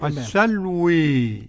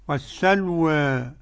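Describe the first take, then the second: First: The final vowel leans strongly toward 'e'. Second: The final vowel leans slightly toward 'e'. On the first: "بالإمالة" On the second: "والتقليل"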